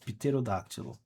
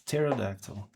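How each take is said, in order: First: The word is pronounced the Portuguese way. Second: The word is pronounced the English way. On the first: "that's in Portuguese" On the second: "In English, it's"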